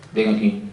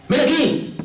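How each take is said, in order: First: "Ven aquí" said low and stern; stern intonation. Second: "Ven aquí" said high and sweetly inviting; sweet intonation. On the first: Teacher showing intonation to students, low stern command. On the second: Teacher showing intonation to students, high sweet invitation. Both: Shown as a demonstration. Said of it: "La entonación".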